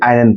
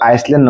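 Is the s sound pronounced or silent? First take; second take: silent; pronounced. First: The word is said without any s sound. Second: The word is said with an s sound. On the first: The speaker calls it right. "আইল্যান্ড পঢ়ো" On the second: The speaker calls it wrong. "আইসল্যান্ড নপঢ়ি"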